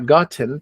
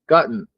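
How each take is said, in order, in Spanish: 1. La t se pronuncia claramente antes de la terminación. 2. La t se traga en una terminación nasal. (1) "Si fuera Inglaterra sería gotten" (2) "con sonido nasal"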